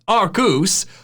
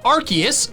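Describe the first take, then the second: First: It is said with 'arc' and a 'Zeus' ending. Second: It is said without 'arc' and a 'Zeus' ending. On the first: It refers to an old joke. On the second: This is the official pronunciation.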